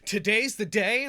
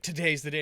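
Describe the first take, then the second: First: It is said as a disbelieving question. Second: It is said as a plain statement.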